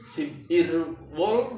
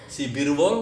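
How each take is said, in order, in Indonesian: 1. Bagiannya diucapkan terpisah. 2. Bagiannya disambung jadi satu kata yang mengalir.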